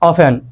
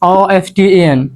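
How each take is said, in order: First: The t sound is left out entirely. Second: The t sound is pronounced in the middle. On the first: The speaker calls it right. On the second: The speaker calls it wrong.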